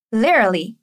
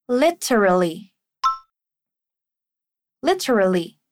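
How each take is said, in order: First: "Literally" clipped to two syllables, like "lerly"; shortened pronunciation. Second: "Literally" with all four syllables, li-te-ra-lly; full pronunciation. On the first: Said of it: "podemos encurtar isso e dizer literally". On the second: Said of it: "pode ter duas pronúncias". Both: Shown as a demonstration.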